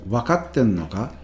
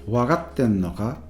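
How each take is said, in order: First: The second syllable starts with a voiceless K. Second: The second syllable starts with a voiced G. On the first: "rather than with a K" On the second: "with a G"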